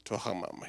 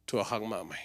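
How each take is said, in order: First: Quieter, fading question; softer repeat. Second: Said in the usual way. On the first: Shown as a demonstration. Preacher quietly repeating the question to listeners, softer. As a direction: let the question fade out.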